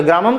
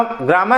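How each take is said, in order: First: ग्रामम closing on a nasal m; anusvara ending. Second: ग्रामः ending in a breathed h from the throat; visarga ending. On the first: Teacher contrasts the anusvara form with the visarga form. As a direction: hum the final m of ग्रामम through the nose. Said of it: "ग्रामम कर दोगे तो वो अनुस्वार में चला जाएगा". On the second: Teacher contrasts the visarga form with the anusvara form. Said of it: "ये अब जैसे यहाँ पे ग्रामम". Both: Shown as a demonstration.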